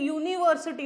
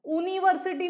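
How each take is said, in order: First: The word begins with a 'y' glide sound. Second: The word begins with a plain 'oo' vowel. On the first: The speaker calls it right. "Similarly यूनिवर्सिटी होता है" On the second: The speaker calls it wrong. "यूनिवर्सिटी नहीं होता, ऊ होता तो एन आ जाता"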